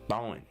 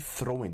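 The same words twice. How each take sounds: First: The word is reduced, sounding like thawing. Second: The word is said in full, with clear r. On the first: The speaker calls it right. "You will say throwing" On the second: The speaker calls it wrong. "Don't say the full word"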